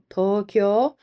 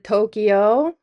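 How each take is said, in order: First: The 'kyo' is merged into one syllable. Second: The 'kyo' is split into two syllables. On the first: The speaker calls it right. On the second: The speaker calls it wrong. "Some people pronounce it"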